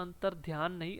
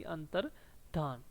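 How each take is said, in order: First: Said in the usual way. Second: अंतर्धान said slowly and softly, धान without य; slow, clear अंतर्धान; careful pronunciation. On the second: Shown as a demonstration. Teacher correcting अंतर्ध्यान to अंतर्धान, slow and careful. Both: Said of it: "ध्यान नहीं होता".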